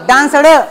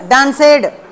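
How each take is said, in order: First: The ending is a soft, swallowed d sound. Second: The ending is a separate, added -ed syllable.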